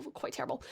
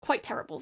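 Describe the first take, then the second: First: Very soft self-deprecating echo; barely voiced repeat; muttered aside. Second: Said in the usual way. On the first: Real, not acted. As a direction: trail it under your breath. Muttered repeat of own verdict.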